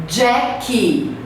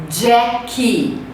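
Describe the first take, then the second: Both takes have the same delivery.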